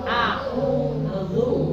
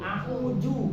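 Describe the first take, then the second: First: The middle consonant is a dh sound. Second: The middle consonant is a j sound. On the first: The speaker calls it right. "Yang benar a'udzu" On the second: The speaker calls it wrong. "apalagi ju"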